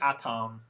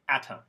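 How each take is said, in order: First: The second syllable has a full vowel. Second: The second syllable has a reduced schwa vowel. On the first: The speaker calls it wrong. "If you say atom, of course I understand what you mean" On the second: The speaker calls it right. "if you put a schwa in there, you'll sound more fluent"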